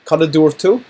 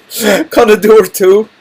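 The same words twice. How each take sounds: First: Said in the usual way. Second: Slow, loud, menacing and higher; a hammed-up threat, laughing; threatening question. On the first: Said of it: "this isn't necessarily a threat". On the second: Shown as a demonstration. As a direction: lean in with mock menace, drawn out. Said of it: "this isn't necessarily a threat, but it could be".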